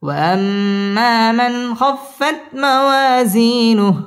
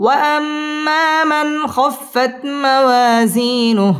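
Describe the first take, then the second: First: Slow chant, weight on موازينه; lower recitation. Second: Higher, slow chant opening on وأما; high recitation. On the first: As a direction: bring the tune down, lean on موازينه. (নিচু সুরে তিলাওয়াত) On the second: (উঁচু সুরে তিলাওয়াত) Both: Shown as a demonstration. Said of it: "wow ঠোঁট গোল করে উচ্চারণ করতে হবে".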